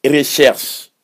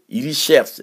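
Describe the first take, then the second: First: "recherche" as re-shersh; wrong pronunciation mocked. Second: "Recherche" as iri-shersh; correct pronunciation. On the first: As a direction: imitate the faulty "recherche". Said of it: "On dit pas". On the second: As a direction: model the right "Recherche". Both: Shown as a demonstration.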